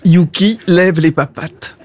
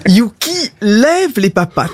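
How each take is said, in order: First: "Yuki lève les papates" lower and evener; repeated dog command. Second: "Yuki lève les papates" with a raised, coaxing lilt; dog command. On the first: Owner to a disobedient dog, lower repeated command. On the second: Owner showing a trick, lilting command. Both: Acted.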